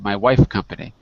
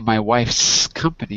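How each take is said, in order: First: No S sound is heard after 'wife'. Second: An S sound is heard after 'wife'. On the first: The company seems to be called Wife. The speaker calls it wrong. "you said my wife company" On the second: The company belongs to the wife. The speaker calls it right. "you didn't say my wife's company"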